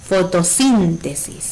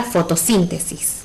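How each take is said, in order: First: "Fotosíntesis" slowly, SÍN stretched; stress on SÍN. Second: Said in the usual way. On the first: Shown as a demonstration. Teacher showing which sounds strongest, "Fotosíntesis" slowly with stressed SÍN. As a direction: lean on the third syllable: foto-SÍÍÍN-tesis. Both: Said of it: "Cuál suena más fuerte".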